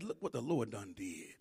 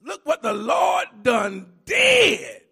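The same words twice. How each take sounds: First: Low and soft, almost to himself; soft lead-in to the shout; quiet. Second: Loud and slow, each word drawn out; slow triumphant preacher shout. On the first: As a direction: hush it low before the build. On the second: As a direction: belt it like a preacher's climax. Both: Shown as a demonstration. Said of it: "Can I say it like this?".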